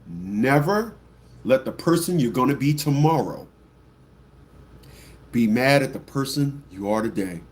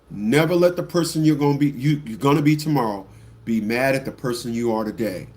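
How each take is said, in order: First: It is said slowly and deliberately. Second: It is said at a normal pace.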